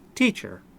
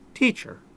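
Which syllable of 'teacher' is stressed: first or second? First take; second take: first; first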